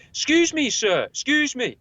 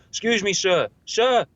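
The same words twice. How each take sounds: First: High, slow, drawn-out polite calling. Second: Louder, higher insistent sir; louder polite call. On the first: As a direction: call out to a stranger, overly polite. Calling out to an old man. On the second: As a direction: call him again, pushing harder. Calling louder, not heard. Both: Retold or imitated.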